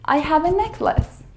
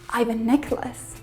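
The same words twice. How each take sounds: First: I have is said as two full words. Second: I have is shortened to one syllable, I've. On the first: The speaker calls it right. "We say" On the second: The speaker calls it wrong. "We don't say"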